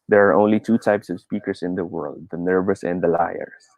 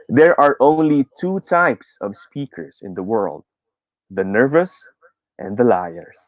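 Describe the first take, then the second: First: It is said in a flat monotone. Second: It is said with varied pitch and emphasis. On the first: The speaker calls it wrong. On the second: The speaker calls it right.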